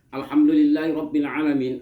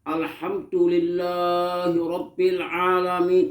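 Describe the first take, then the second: First: The phrase is recited at a quick pace. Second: The phrase is recited at a slow pace. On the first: "walaupun bacaan Fatihah cepat" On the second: "membaca Fatihah pelan-pelan"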